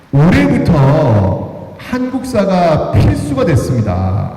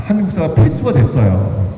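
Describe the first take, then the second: First: 필수가 drawn out slowly and weighted; slow, deliberate announcement stressing 필수가; slow emphasis. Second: Said in the usual way. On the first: Shown as a demonstration. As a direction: lean on 필수가, spelling out each syllable of the news.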